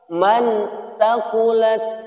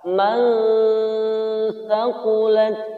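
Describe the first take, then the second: First: The n sound is not concealed. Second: The n sound is concealed and blurred. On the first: The speaker calls it wrong. "Tidak boleh dibaca man thaqulat" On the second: The speaker calls it right. "antara izhar dan idgham, samar-samar dia"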